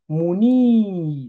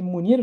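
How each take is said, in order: First: The i vowel is long. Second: The i vowel is short. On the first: The speaker calls it right. "le I, il est prolongé" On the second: The speaker calls it wrong. "j'ai pas dit Mounir"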